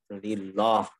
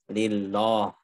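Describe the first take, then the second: The two takes are said the same way.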